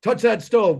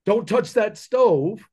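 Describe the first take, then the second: First: Higher, a touch louder mock dare; lightly voiced parent egging the kid on; imitating a baiting dad; tempting parent. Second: Slow, higher mock parent warning a child; lightly voiced parent cautioning a kid off the stove; imitating a careful dad, drawn out. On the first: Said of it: "And then going". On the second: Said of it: "You're not sitting there going".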